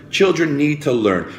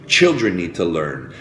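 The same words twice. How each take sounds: First: Put-on "Children need to learn" repeated higher, with insistence; emphatic repeat. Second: Said in the usual way. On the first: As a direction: lift "Children" higher to drive it home.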